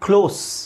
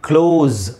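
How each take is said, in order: First: The word ends with a hissing s sound. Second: The word ends with a buzzing z sound. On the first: It means near. "ಯಾವುದು? ಹತ್ತಿರ" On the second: It means to shut. "ಕ್ಲೋಸ್ ಝೆಡ್ pronounce ಆಗಬೇಕಲ್ಲಿ"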